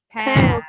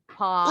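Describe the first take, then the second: First: It is said with an American accent. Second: It is said with a British accent.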